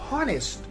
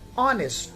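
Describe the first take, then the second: First: The word begins with an audible H sound. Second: The word begins directly with a vowel sound. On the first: The speaker calls it wrong. "it is not honest" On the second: The speaker calls it right. "It is pronounced as honest. So H is silent here"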